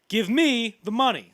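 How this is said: The emphasis falls on an unexpected word. A fresh reading that changes how the line lands. "a good actor like Denzel would probably find a way to say that differently"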